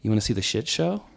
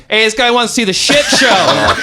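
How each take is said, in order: First: Softer, understated offer; very calm. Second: High, loud shout; calling out. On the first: Drunk friend quietly inviting a stranger, very calm. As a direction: ask it calmly and quietly. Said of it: "to me, very calm". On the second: Man announcing a stranger to his friend, calling out loudly. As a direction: holler it across the store, retold. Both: Retold or imitated.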